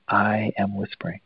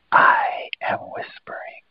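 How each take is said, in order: First: Said in the usual way. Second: Slow, drawn-out whisper. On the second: Shown as a demonstration. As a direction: whisper it slowly as a model to copy. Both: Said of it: "So just whisper".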